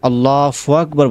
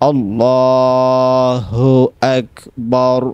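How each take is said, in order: First: An F sound is heard before the second word. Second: An H sound is heard before the second word. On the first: The speaker calls it wrong. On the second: The speaker calls it right.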